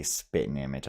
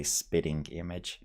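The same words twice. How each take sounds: First: "spitting image" as spit'n image; rejected pronunciation. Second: "spitting image" with a full -ing; own pronunciation. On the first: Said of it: "I wouldn't really say". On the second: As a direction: sound out the ending of "spitting image". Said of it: "I would say". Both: Shown as a demonstration.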